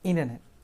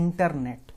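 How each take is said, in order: First: It is said with an American accent. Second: It is said with an Indian accent. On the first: "उसे American बोलते हैं" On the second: "हम बोलते हैं"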